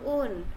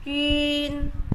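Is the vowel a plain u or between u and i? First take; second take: plain u; between u-i. First: The vowel is a plain u sound. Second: The vowel sounds between u and i. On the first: The speaker calls it wrong. "maka dibaca bukan un" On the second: The speaker calls it right. "agak-agak mau ke u, agak-agak mau ke i"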